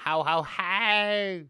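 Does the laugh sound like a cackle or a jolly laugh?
cackle. A cackling laugh with a twist at the end. It sounds like a witch. The speaker calls it wrong. "You put a weird twist on it at the end"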